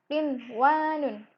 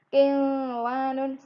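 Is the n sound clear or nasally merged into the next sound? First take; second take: clear; merged. First: The n is said clearly before the w. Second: The n is nasally merged into the w. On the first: The speaker calls it right. "yang benar biasa aja" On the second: The speaker calls it wrong.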